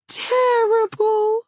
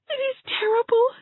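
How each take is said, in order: First: "terrible" stretched slow and louder, a tearful moan; drawn-out terrible. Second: It is terrible rushed out fast with a rising plea. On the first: Hazel moaning her grief to Anne, slow and tearful. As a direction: linger on "terrible" like a sigh of despair. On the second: Hazel protesting her suffering to Anne, rushed and rising. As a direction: hurry "terrible" up into a wail. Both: Acted.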